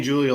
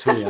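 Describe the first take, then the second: First: Julio said as JOO-lee-oh; hard J pronunciation. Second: Julio said as HOO-lee-oh; H pronunciation. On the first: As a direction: start Julio with an English J, as in June. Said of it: "I've been saying Julio the whole time". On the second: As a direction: start Julio with a Spanish H sound. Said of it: "Say it with an H". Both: Shown as a demonstration.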